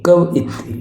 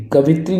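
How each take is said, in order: First: कवित्री broken as "kav-itri"; careful "kav-yitri" for कवित्री; correct pronunciation shown. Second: कवित्री run together as "ka-vit-ree"; short, joined "ka-vitri" for कवित्री; wrong pronunciation shown. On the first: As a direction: say कवित्री with a separate "i" before "tri". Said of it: "important". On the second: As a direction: say कवित्री with v straight into "it". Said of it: "कवित्री नहीं". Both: Shown as a demonstration.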